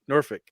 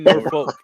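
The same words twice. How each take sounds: First: The L sound is left silent. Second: The L sound is clearly pronounced. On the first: The speaker calls it right. "It's like saying Suffolk, but saying Norf Norfolk" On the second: The speaker calls it wrong. "You don't say Norfolk"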